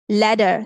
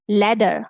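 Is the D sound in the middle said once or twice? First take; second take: once; once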